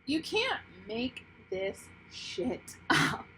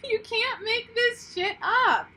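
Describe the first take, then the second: First: Slow, wondering; awed. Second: High, slow, laughing; laughing disbelief. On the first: Reader marvelling at the cards to viewers. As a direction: let it sink in slowly. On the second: Reader laughing in disbelief at the cards. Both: Real, not acted.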